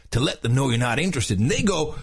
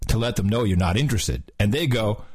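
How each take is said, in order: First: Lightly voiced surfer narrator; mild surfer-dude narration. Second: Said in the usual way. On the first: Shown as a demonstration. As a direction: keep a touch of surfer dude. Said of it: "the whole thing in a surfer's voice". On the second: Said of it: "should I do both voices?".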